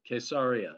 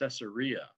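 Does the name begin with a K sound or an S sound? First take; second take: K sound; S sound. First: The name begins with a hard K sound. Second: The name begins with a soft S sound.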